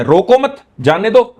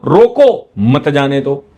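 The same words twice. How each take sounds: First: "रोको मत" as one quick unit, then "जाने दो"; pause after मत. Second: Slow "रोको" set apart, then "मत जाने दो" together; pause after रोको. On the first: Teacher contrasting two readings, break after "मत". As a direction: join "रोको" to "मत", split before "जाने दो". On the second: Teacher contrasting two readings, break after "रोको". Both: Shown as a demonstration. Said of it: "अब ये दोनों बातें हैं".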